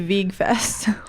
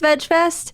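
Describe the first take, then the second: First: Veg is said with a long e, like vegan. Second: Veg is said with a short e, like edge. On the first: The speaker calls it wrong. "it could be Veg Fest, which doesn't sound as good" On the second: The speaker calls it right. "I think it's pronounced Veg Fest"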